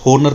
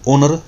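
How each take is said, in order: First: The word begins with an h sound. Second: The word begins directly with a vowel. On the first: The speaker calls it wrong. "ये होनर नहीं" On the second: The speaker calls it right. "ओनर पढ़ा जाएगा"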